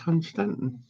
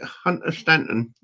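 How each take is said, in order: First: The name is said with two syllables. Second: The name is said with three syllables. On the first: The speaker calls it right. "and it's Hun Stanton" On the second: The speaker calls it wrong. "she calls it Hunter Stanton"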